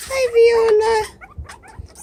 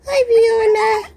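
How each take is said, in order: First: Very slow greeting with a rising end; drawn-out hi. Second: Said in the usual way. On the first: Real, not acted. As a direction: stretch the hi out slowly for the pet. Greeting the pet.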